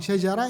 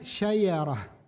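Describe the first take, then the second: First: The second consonant is a j sound. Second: The second consonant is a y sound.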